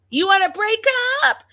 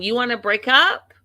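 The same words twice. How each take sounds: First: Very high, loud mimicked scream; retold scream. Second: Raised, louder quote of an angry wife; retold scream. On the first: Vlogger imitates wife repeating her challenge, full mock scream. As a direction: escalate into a high-pitched yell, imitating her. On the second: Vlogger imitates wife confronting husband, retold scream. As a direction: start the mock yell, pitched up. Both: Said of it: "she's screaming".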